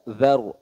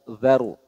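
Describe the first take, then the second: No difference in how they are said.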